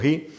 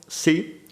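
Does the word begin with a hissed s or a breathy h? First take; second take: breathy h; hissed s. First: It begins with a breathy h. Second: It begins with a hissed s. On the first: "terminamos diciendo ji" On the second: "Cuando decimos sí"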